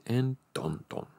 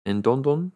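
First: "And Don Don" falling and quieter, leading on; corrected as narration. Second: "And Don Don?" with a rising question tune; misread as a question. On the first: Reader corrects the misread line as narration, falling tune. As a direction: let "And Don Don" drop and run on into the sentence. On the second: Reader misreads the line as Urashima's question, rising tune. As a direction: lift the end of "And Don Don?" as if asking. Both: A narrator's reading.

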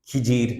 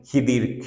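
First: খিজির said with a j sound, khi-jir; jim pronunciation. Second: খিদির said with a d sound, khi-dir; dal pronunciation. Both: Shown as a demonstration. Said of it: "বিভিন্ন বানান দিয়ে লেখা হয়".

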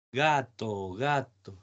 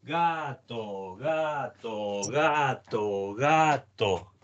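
First: "gato" one even syllable per footstep, both syllables equal; gato on each step. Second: "gato" with the first syllable pulled long and the second short, lopsided; uneven gato rhythm. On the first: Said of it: "no digas gato con cada pie". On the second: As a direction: limp through "gato", long then short. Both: Shown as a demonstration.

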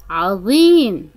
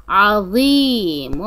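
First: Said in the usual way. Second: عظيم drawn out slowly with a full ظ; slow emphatic ظ. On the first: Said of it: "طريقة نطق". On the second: Shown as a demonstration. Teacher modelling ظ in عظيم, slow and deliberate. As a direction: stretch عظيم, fill the mouth on ظ. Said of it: "طريقة نطق حرف الظاء".

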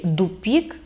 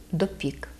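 First: Дупік with u in the first syllable; dialect дупік. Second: Said in the usual way. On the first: Shown as a demonstration. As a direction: Podillia дупік, unstressed o turned to u. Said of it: "кажуть". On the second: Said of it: "замість".

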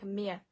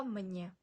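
First: Мє as "mye", without any n; wrong pronunciation. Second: Мнє as "mnye", soft n after m; added n. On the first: Teacher showing what not to say, мє without n. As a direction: say мє with only a y-glide, as the mistake. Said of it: "Це не будемо читати як". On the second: Teacher correcting learners, мнє with added soft n. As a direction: put a clear soft n into мнє. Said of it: "Це не будемо читати як мє". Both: Shown as a demonstration.

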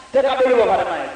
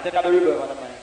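First: Said in the usual way. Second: Softer, lower, drenched in echo; reverb on the mic. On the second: Shown as a demonstration. Deejay tests the reverb on the mic, echoing and softer. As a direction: say it again with the reverb washing over it.

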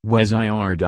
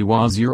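First: "wazir" said as weh-zye-ar, the middle vowel opened into a long eye sound; alternative reading of wazir. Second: "wazir" said as wah-zeer, open a and a single clear ee; first Arabic reading of wazir. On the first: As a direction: give "wazir" the other reading, weh-zye-ar, three drawn-out beats. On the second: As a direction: read "wazir" carefully as wah-zeer, two clean syllables. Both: Shown as a demonstration. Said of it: "it is properly wazir or".

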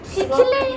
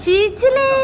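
First: Said in the usual way. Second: Much higher, louder "చిచిలే" squealed. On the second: Real, not acted. Aunt squealing "చిచిలే" high and loud at baby Mahi.

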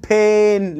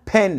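First: "pen" with a long, drawn-out E; imitated "peeen", vowel held too long; overstretched vowel. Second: "pen" with a short, open E; short vowel. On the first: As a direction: stretch "pen" slowly like a child overdoing it. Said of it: "بيتخيل إن هو بمد فيها". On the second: Shown as a demonstration. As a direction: say "pen" without stretching the vowel. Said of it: "لا. اسمها pen".

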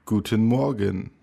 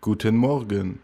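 The two takes are said the same way.

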